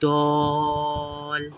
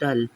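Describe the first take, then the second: First: The vowel is stretched long. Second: The vowel is short and clipped. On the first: The long vowel is present in the word. The speaker calls it right. "alif, mad, zabar, dol" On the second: The long vowel is absent from the word. The speaker calls it wrong. "not dull"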